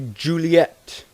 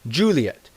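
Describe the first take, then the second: First: The name is said with an American pronunciation. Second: The name is said with an English pronunciation. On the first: "Americans might say" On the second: "The English pronunciation is"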